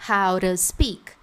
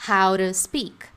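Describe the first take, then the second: The two takes are said the same way.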